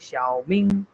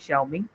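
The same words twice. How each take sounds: First: It is said with two distinct Chinese tones. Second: It is said without Chinese tones, English-style. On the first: "but in Chinese they are saying Xiaoming" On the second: "in English we are saying Xiaoming"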